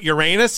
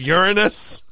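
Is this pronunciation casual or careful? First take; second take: casual; careful. First: The name is said in a casual, everyday way. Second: The name is said in a careful, formal way. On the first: This is the habitual everyday way of saying it. The speaker calls it wrong. "I still call it Uranus" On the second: This is the proper way to say it. The speaker calls it right. "even though it's Uranus"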